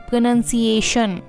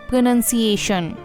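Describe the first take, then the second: The two takes are said the same way.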